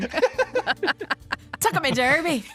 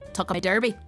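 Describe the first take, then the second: First: It is screamed loudly with feeling. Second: It is said at a normal volume. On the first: The speaker calls it right. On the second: The speaker calls it wrong.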